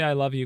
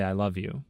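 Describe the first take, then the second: First: A touch forceful, quick little push. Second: Said in the usual way. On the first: A narrator's reading. Child forced by dad to say it, a touch forceful. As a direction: push the words out a bit firmly. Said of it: "quite forcefully now". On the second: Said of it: "My dad forces us to say".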